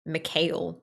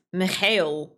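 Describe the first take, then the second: First: Said in the usual way. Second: Mikhail said slowly in a Russian accent, with a rolled stress on the last syllable; Slavic accent. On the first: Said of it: "You can't say Mikhail". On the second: Shown as a demonstration. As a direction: draw out Mikhail slowly, like a native Russian speaker. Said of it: "it has to be said with an accent".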